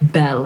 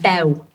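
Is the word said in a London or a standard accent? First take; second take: standard; London. First: It is said in a standard accent. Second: It is said in a London accent. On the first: "I don't need to sort of say bell and tell" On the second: "I've got a London accent"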